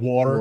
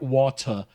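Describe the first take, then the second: First: It is said in a non-British accent. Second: It is said in a British accent. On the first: The speaker uses their own usual speech. "whatever accent I came up with during my life" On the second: The speaker adapts to local speech in England. "when I'm in England, ... I try to mimic the accent"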